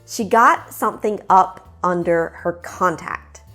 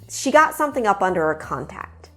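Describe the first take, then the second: First: The sentence is said at a slower pace. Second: The sentence is said at a natural, quick pace.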